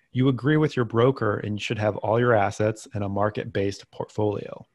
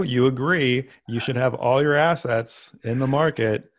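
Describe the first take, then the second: First: Deadpan sarcasm, played straight; sarcastic. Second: Mock-earnest sarcasm, a bit higher and more emphatic; sarcastic. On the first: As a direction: say it dead serious but mean the opposite. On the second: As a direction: lean into the irony, pushing it harder. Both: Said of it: "note of sarcasm here".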